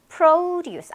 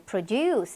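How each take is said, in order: First: The stress is on the first syllable. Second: The stress is on the second syllable. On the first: It is a noun meaning farm produce. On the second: It is a verb meaning to make.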